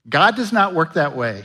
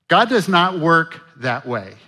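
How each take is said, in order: First: Said in the usual way. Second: God does not work that way, each word leaned on; slow down and hammer does; slower, stressed repeat. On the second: Shown as a demonstration. Pastor repeating God does not work that way for emphasis, slowly.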